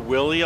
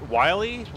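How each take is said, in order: First: The first vowel sounds like 'ih'. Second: The first vowel sounds like 'eye'. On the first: The speaker calls it wrong. "What do people say" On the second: The speaker calls it right. "I'm the first one to pronounce your name right"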